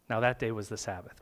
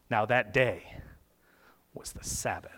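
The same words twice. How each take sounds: First: It is read plainly, without dramatic weight. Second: It is read slowly with heavy, dramatic weight. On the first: The speaker calls it wrong. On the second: The speaker calls it right.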